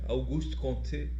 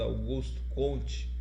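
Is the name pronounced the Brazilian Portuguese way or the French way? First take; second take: French; Brazilian. First: The name is said with French pronunciation. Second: The name is said with Brazilian Portuguese pronunciation. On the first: "Eu prefiro o termo francês, eu acho mais bonitinho" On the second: "no Brasil é pronunciado"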